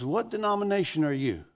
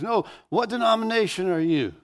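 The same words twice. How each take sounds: First: Higher-pitched retold question from an inmate; inmate's question. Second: Higher, insistent retold repeat of the question; insistent inmate. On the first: Inmate asking the visiting student preacher, raised-pitch question. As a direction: ask it as the old inmate, voice lifted. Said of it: "He goes". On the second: Inmate brushing off the preacher's answer, insistent higher-pitched question. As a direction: press the question as the unsatisfied inmate. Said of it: "And he goes".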